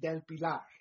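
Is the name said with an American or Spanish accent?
Spanish. The name is said with a Spanish accent. It feels easier to say it this way. "I say it easier when I say it with a Spanish accent"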